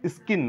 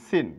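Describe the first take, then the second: First: The c is pronounced as a k sound. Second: The c is silent, not pronounced at all. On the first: The speaker calls it wrong. "স্কিন না" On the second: The speaker calls it right. "এটা হবে সিন, সি এর sound নেই।"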